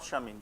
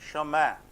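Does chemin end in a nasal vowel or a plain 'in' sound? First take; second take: plain in; nasal vowel. First: The ending is said as a plain 'in'. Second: The ending is said as a nasal vowel. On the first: The speaker calls it wrong. "not chemin" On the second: The speaker calls it right. "I N is always a"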